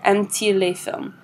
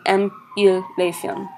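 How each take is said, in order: First: A t sound links aime and il. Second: No t sound links aime and il. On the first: The speaker calls it right. "we add the T in between so that we have that liaison" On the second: The speaker calls it wrong. "that sounds a lot better than aime-il les films"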